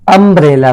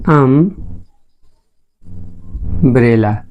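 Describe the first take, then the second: First: Said in the usual way. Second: umbrella softly drawn out, अम... long pause... ब्रेला; slow sounded-out pronunciation. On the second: Shown as a demonstration. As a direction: sound out umbrella in two slow parts, quietly. (Umbrella को तोड़कर, धीमे और धीरे बोलें) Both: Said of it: "umbrella pronunciate करें".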